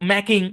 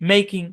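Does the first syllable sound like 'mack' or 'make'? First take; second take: mack; make. First: The first syllable sounds like 'mack'. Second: The first syllable sounds like 'make'. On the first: The speaker calls it wrong. "ভুল উচ্চারণ" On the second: The speaker calls it right. "সঠিক উচ্চারণ"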